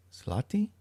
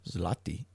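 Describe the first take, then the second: First: "Zloty" asked aloud with a rising tune, "slah-tee"; unsure try at "Zloty"; questioning try. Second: "Zloty" whispered to oneself as "zlah-tee"; whispered try. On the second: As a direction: whisper "Zloty" to yourself, testing it. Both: Real, not acted. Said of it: "the interweb says it's a Z".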